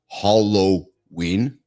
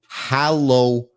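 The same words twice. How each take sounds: First: The first syllable sounds like 'hol'. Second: The first syllable sounds like 'hal'. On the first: The speaker calls it wrong. "not ... There's no H O" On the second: The speaker calls it right. "Look at the spelling"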